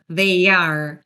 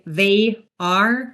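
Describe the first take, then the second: First: A y sound links 'they' into 'are'. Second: The words are said without a linking y sound. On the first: The speaker calls it right. "we insert a y sound because they ends with a diphthong" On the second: The speaker calls it wrong. "So instead of saying"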